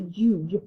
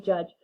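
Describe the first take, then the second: First: The vowel is a long u sound. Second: The vowel is a short u sound. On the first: The speaker calls it wrong. "this U would then be long" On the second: The speaker calls it right. "That sound right before the j is the short U sound"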